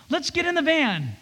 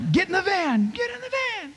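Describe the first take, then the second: First: Higher, softer, kindly asking; gentle invitation. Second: Higher, joking sergeant command, fading quieter; mock barked order. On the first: Shown as a demonstration. Father speaking to his children, gentle and loving. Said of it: "in a gentle way, in a loving way". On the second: Dad joking with his little girls, mock barked order. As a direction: order them into the van like a drill sergeant. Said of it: "and I go".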